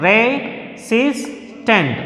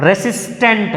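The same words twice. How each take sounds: First: Resistant drawn out slowly, SIS lifted; slow teacher demo of re-SIS-tant; stress on SIS. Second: Said in the usual way. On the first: Shown as a demonstration. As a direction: stretch Resistant and hit its middle. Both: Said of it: "our stress is on the second syllable".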